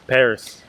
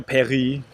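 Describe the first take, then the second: First: "Paris" with the final s sounded, lower; English pronunciation. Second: "Paris" as pa-ree with a throaty r; French pronunciation. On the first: Griping that nobody tries, "Paris" in everyday English with sounded s. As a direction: say "Paris" the plain English way, ending in s. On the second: Griping about the bakery's name, "Paris" said French-style as pa-ree. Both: Shown as a demonstration. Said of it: "It's just Paris".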